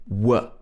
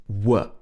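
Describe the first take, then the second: The two takes are said the same way.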